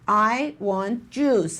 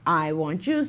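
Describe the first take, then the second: First: It is louder than the preceding question. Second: It is as loud as the preceding question.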